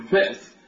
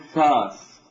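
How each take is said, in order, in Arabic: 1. تُسمع همزة في الوسط. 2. حرف مد طويل يحل محل الهمزة. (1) "بنو تميم ينبرون يقولون فأس" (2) "الحجازيون يقولون فاس"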